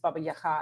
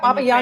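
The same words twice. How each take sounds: First: The last syllable starts with an H sound. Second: The last syllable starts with a hard G. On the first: This is the Ukrainian form. "in Ukrainian it's" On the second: This is the Russian form used in English. "is what we say in English because that's really the actually the Russian pronunciation"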